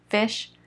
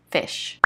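First: Said in the usual way. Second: A soft unvoiced repeat of "fish"; whispered echo. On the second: Shown as a demonstration. Teacher echoes "fish" in a whisper for the class. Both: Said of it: "teacher repeats word twice".

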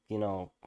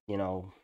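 The two takes are said the same way.

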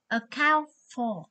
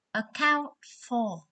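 First: Said in the usual way. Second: "Account for." said slowly, each syllable clear; slow it down so students can copy "Account for."; slow, careful "Account for." for the class; slow repeat. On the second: Shown as a demonstration.

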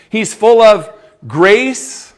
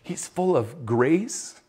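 First: Louder, slow proclamation, rising on of; proclaiming. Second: Much softer, slow echo, rising on full; soft slow reverent echo; hushed. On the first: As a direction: ring it out to the congregation. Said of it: "And what is Jesus full of". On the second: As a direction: let it sink in almost under the breath. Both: Acted.

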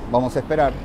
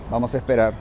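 The two takes are said the same way.

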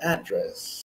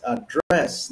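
First: "address" as AD-dress; American "address", stressed up front; stress on first syllable. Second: "address" as a-DRESS; British-style "address", stressed at the end; stress on second syllable. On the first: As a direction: slowly hit "AD" in "address". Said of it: "not address". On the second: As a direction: slowly hit "DRESS" in "address". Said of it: "The stress". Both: Shown as a demonstration.

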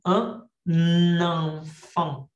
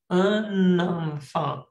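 First: Teacher demonstrates liaison to Spanish-speaking students; liaison demo. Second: Un enfant said very slowly with the n joined onto enfant; teacher repeats the liaison slowly for the class; slow liaison demo. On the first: Un enfant with the n linked into enfant. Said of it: "y aquí hago la liaison". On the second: Very slow Un enfant with clear linking n. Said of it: "tengo que pronunciar la N". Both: Shown as a demonstration.

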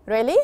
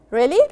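First: Said in the usual way. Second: Really? louder with a sharp questioning rise; a loud doubting Really? rising at the end; surprised really. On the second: Shown as a demonstration. Teacher asks Really? to check good news, louder and surprised. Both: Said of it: "really here means you want to make sure".

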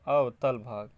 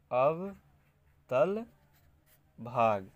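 First: Said in the usual way. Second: अवतल split into अव and तल, each stretched and rising, then भाग; slow dictation. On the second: Shown as a demonstration. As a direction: dictate अवतल syllable by syllable as if writing. Dictates phrase while writing.

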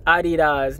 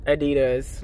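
First: Adidas said the German way, AH-dee-dahs; German-style Adidas, stressed at the front; correct pronunciation. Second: Adidas said as uh-DEE-dus; American Adidas, stressed on DEE; wrong pronunciation. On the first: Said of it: "it's pronounced". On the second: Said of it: "not Adidas". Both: Shown as a demonstration.

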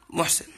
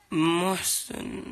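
First: Said in the usual way. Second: محسن drawn out very slowly, each sound clear; name said carefully. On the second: Shown as a demonstration. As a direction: pronounce محسن slowly for the fan. (نطق "محسن" ببطء شديد ووضوح) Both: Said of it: "انطق اسمي بليز".

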